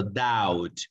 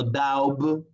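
First: DOUBT said like "dowt", no B; doubt with silent B. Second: DOUBT wrongly said like "dowb", B audible; doubt with B sounded. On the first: Teacher correcting the error, DOUBT without its B. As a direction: drop the B in DOUBT, slow, ending on T. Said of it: "no, sino doubt". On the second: Teacher showing what not to say, DOUBT with a spoken B. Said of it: "No doubt, no, sino doubt". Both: Shown as a demonstration.

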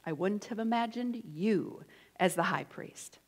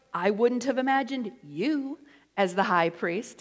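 First: Softer. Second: Sassy. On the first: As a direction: drop it down, quiet and sly. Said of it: "Where is the emphasis in that sentence?". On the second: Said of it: "It's always how you say it". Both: Shown as a demonstration.

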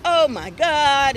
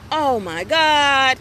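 First: Slow, louder oh my God; an embarrassed nephew; dragged-out cringing oh my God; mock embarrassed groan. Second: Slow, loud drawn-out oh my God; stretched-out embarrassed oh my God; mock embarrassed groan. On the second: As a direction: play the embarrassed teen nephew. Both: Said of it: "like he was embarrassed".

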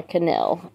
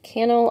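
First: Kuh-NELL, Cannell with a strong ending; Cannell stressed last. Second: CAN-ul, Cannell with a weak ending; Cannell stressed first. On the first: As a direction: stress the second syllable of Cannell. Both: Shown as a demonstration. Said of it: "I don't know".

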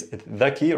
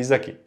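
First: "dhaki" opening with a voiced th; original pronunciation. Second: "zaki" opening with a clear z; dialect pronunciation. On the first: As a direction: say "dhaki" the Fusha way, tongue between teeth. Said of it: "it's dhaki originally". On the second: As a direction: say "zaki" the Levantine way, z not th. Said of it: "dialect could be zaki". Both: Shown as a demonstration.

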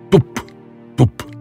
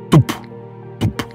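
No difference in how they are said.

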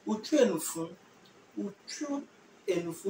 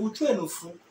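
First: Slow, drawn-out Utwenufu with a rising end; slow model. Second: Said in the usual way. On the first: Shown as a demonstration. Teacher slowly modelling the answer for students. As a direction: stretch out Utwenufu so students catch each syllable. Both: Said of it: "So you say".

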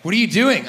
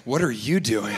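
First: High, loud alarmed question; mock the couple's startled objection; startled challenge. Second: Low, unruffled retort; calm turned-back question. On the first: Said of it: "when they're like". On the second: Acted. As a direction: throw it back coolly, pitched low. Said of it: "I just say".

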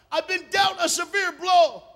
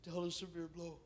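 First: High shouted lament, slow and heavy; anguished outcry. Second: Soft, subdued admission of pain; somber lament. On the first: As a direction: hurl the pain out loud, slowly. Acts out Ruth's bitter cry. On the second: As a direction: say it very quietly, heavily. Somber echo of earlier cry. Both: Acted.

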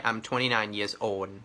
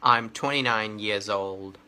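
First: Put-on "old" said like Thai โอน, ending in N; mispronounced final LD. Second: Put-on "old" with a clear dark L, then D; correct final LD. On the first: Tutor shows students the mistake to avoid, mispronounced final LD. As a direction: swap the LD of "old" for a plain N. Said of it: "ไม่ใช่ old นะ". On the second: Tutor models an age sentence for students, correct final LD. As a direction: sound the L in "old" before closing on D. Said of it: "เอาเสียงลอลิงให้ได้ก่อน". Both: Shown as a demonstration.

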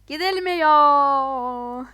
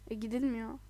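First: Loud, very slow drawn-out whine; mock wail. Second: Said in the usual way. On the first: Stuck on the bridge, a drawn-out mock whine. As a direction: stretch it into a mock lament.

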